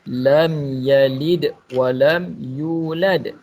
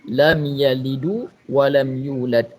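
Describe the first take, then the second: First: The d of yalid ends with no vowel. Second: The d of yalid takes an added u vowel. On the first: The speaker calls it right. "Sepatutnya kita baca" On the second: The speaker calls it wrong. "Asalnya berbaris mati, tetapi dibariskan dengan dhammah"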